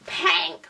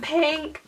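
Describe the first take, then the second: First: "pink" said higher with an opened-out vowel; silly pronunciation. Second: Said in the usual way. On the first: Real, not acted. Vlogger playing with "pink", silly widened vowel. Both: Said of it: "I don't know what's wrong with me".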